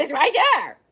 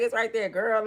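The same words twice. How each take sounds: First: Mock sassy doctor, a touch put-on; imagined sassy doctor. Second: Said in the usual way. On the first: Retelling her surgeon's answer, a light mock sassy voice. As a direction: play the doctor as she pictures him, lightly. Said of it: "He ain't say it like that, but in my mind". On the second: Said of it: "He ain't say it like that".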